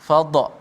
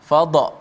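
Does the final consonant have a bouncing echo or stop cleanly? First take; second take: bouncing echo; bouncing echo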